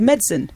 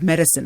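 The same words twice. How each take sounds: First: It is pronounced in an English-style way. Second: It is pronounced in the usual American way. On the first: "it's more of an English way of saying the word medicine" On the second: "as we would say"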